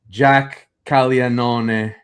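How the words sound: The name is said with an Italian pronunciation. The speaker calls it right.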